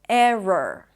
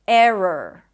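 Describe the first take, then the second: The two takes are said the same way.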